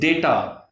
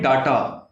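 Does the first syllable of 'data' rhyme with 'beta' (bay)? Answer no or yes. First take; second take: yes; no. First: The first vowel sounds like the 'be' in beta. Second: The first vowel differs from the 'be' in beta. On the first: The speaker calls it right. "The correct pronunciation of this word is data" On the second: The speaker calls it wrong. "people call it data. It's not correct pronunciation"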